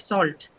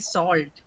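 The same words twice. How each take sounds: First: The vowel is short, in a British accent. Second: The vowel is long, in an American accent. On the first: "in the British uh, region, uh, it is actually a short vowel sound" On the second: "pronounced with a longer O sound"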